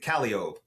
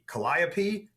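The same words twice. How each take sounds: First: It is pronounced the local New Orleans way. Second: It is pronounced the standard, expected way. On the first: This is how locals say it. "but we pronounce it Calliope" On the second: This is how it is supposed to be said. "it's supposed to be Calliope"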